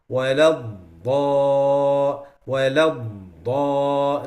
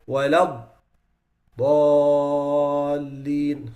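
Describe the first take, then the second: First: وَلَا الضَّا- clipped before the end; cut-short elongation. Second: وَلَا الضَّالِّينَ with the dad fully prolonged; full elongation. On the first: Teacher demonstrating the wrong clipped recitation. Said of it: "they cut the sound a little bit". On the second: Teacher reciting the correct long form. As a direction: stretch الضَّالِّينَ out, long and even. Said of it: "instead of that they say". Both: Shown as a demonstration.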